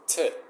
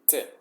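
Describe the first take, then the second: First: A softer t with the tongue behind the teeth. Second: A sharp t with the tongue at the teeth. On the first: "in English, you put it kind of in, in the palate, just a little bit before your teeth ... kind of a softer T" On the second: "in Spanish is te, You kind of put your tongue between your teeth"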